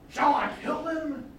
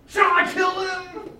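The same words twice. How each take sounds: First: High, slow, eager ask; the king hoping for a yes; first asking of the king, keen; eager question. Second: Much higher, louder and slower, almost begging; the king can hardly wait to kill them; second asking, louder and more eager. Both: Acted. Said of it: "He really wants to kill them".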